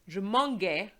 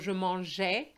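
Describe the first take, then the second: First: The g is said hard, as in go. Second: The g is said soft, as in manger. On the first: The speaker calls it wrong. "a G next to an A gives you a G sound. Je mangeais doesn't sound right at all" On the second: The speaker calls it right. "keep the original pronunciation of the infinitive verb"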